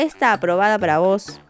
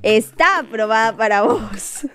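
First: The first word is stressed on its first syllable. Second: The first word is stressed on its second syllable. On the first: The speaker calls it wrong. "No, qué mal se escuchó eso" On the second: The speaker calls it right. "Con tilde"

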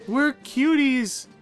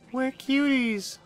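First: It is said at normal, louder volume. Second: It is said at a quieter volume.

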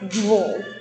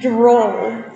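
First: It is said at normal speed. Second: It is said slowly.

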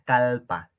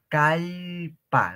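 First: The middle consonant is a plain L sound. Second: The middle consonant is a double L sound. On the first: The speaker calls it wrong. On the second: The speaker calls it right.

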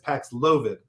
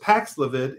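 First: The stress is on the second syllable. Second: The stress is on the first syllable. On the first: The speaker calls it right. "the company said it's Paxlovid. On the second syllable" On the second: The speaker calls it wrong. "which I thought was Paxlovid"

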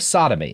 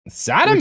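First: It is read in a plain, ordinary voice. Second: It is said in a dramatic, put-on voice. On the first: The speaker calls it wrong. "Which you kind of didn't do" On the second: The speaker calls it right. "In that tone of voice"

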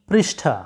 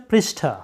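No difference in how they are said.

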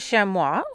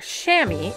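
First: It is a non-American pronunciation of the word. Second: It is the common American pronunciation of the word.

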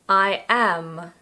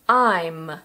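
First: It is said as two full words. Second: It is said as one contracted syllable.

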